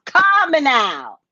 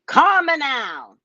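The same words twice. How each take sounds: First: A lightly put-on Caribbean psychic call, Calm now drawn out and louder; Miss Cleo accent. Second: A lightly put-on Caribbean psychic call, Calm now drawn out; Miss Cleo accent. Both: Shown as a demonstration. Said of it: "I've been practicing all day".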